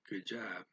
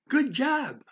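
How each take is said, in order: First: It is said flat and without enthusiasm. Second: It is said with high, rising, enthusiastic pitch. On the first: The praise is given only because it is expected. "not very enthusiastic" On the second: The praise is sincere. "kind of went up there in the up there in the voice range, right? When, when I really meant it"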